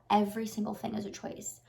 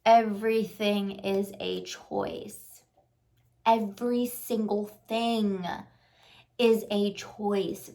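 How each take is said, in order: First: Said in the usual way. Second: Very slow, every word weighted; slow and firm, each word landing; slow emphatic. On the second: Shown as a demonstration. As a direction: lay it down word by word. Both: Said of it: "Remind yourself of that".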